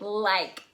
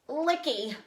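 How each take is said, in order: First: It is one syllable with a long vowel. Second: It is two syllables with a short vowel. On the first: The speaker calls it right. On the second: The speaker calls it wrong.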